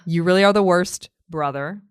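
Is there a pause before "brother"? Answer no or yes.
yes. There is a pause before "brother". He is addressing his brother and calling him the worst.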